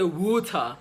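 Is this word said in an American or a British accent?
British. It is said in a British accent, no strong R. "The Brits are more likely to say water"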